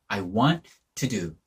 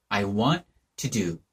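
No difference in how they are said.

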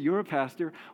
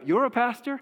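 First: The voice stays fairly level at the end. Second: The voice goes way up at the end.

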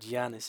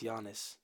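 First: The name does not begin with a soft Y. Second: The name begins with a soft Y sound. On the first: The speaker calls it wrong. "It's not Giannis" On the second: The speaker calls it right. "it's Giannis. Giannis yogging. With a soft yaw"

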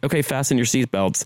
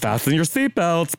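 First: It is said in his natural everyday voice. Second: It is said in an exaggerated, flamboyant camp voice.

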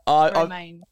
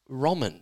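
First: The second syllable sounds like 'main'. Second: The second syllable sounds like 'man'. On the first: The speaker calls it right. "It is Beck Romaine" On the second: The speaker calls it wrong. "I believe the pronunciation is not"

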